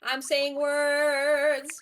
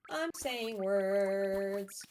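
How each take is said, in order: First: Slow, deep voice changer sound; deep pitch shifted. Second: Said in the usual way. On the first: Pretend. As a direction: talk slowly through a voice changer. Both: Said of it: "Say words".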